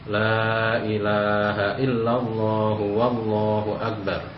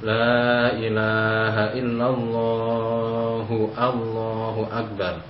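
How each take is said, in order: First: A 'w' sound comes before 'Allahu akbar'. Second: No 'w' sound comes before 'Allahu akbar'. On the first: The speaker calls it right. "padahal di situ ada wawunya" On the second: The speaker calls it wrong. "huruf wawunya tidak disertakan"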